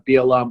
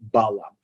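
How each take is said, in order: First: The name is said in its original form. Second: The name is said in its English form. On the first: This is the name's true form. The speaker calls it right. "his name is Bilam" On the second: This form came into English through Greek. The speaker calls it wrong. "The Greek pronunciation of Bilam was Balaam"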